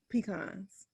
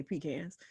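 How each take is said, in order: First: "pecans" said pe-KAHNZ, stress on the second syllable; Inga's pecans. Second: "pecans" said PEE-kanz, stress on the first syllable; her own pecans. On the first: Retold or imitated. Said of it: "That's how she says it". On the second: Shown as a demonstration. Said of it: "I say pecans".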